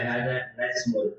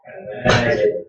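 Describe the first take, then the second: First: Hadza najmun with a flat j, no bounce, falling; mock wrong najmun, no qalqalah; wrong reading. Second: Hadza najmun with the j of najmun bounced, rising at the end; qalqalah bounce. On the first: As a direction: swallow the j in najmun with no echo. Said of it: "Jangan dibaca". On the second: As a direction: echo the j in najmun with a small bounce. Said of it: "Jadi di kol-kolakan". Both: Shown as a demonstration.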